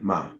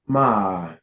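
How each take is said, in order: First: The pitch has no particular contour. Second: The pitch dips down then rises. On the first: "Just empty" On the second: "your falling rising tone"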